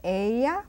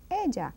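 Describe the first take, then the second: First: Ella with a y sound, EH-yah; Spanish ella. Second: Ella with a zh sound, EH-zhah; ella, ll like the s in measure. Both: Shown as a demonstration. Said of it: "or ella".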